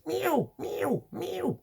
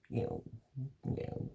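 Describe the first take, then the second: First: High, desperate meowing like a panicked cat; frantic cat meows. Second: Soft, quiet little meows of a settled cat; contented cat meows. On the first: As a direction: meow like a cat begging to be let in. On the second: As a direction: meow softly like a cat at ease. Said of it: "I'm happy now". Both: Retold or imitated.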